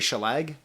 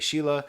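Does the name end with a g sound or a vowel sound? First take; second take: g sound; vowel sound. First: The name ends with a hard g sound. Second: The name ends with an open vowel sound. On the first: "I want to say Shelag" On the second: "but I'll say Sheila"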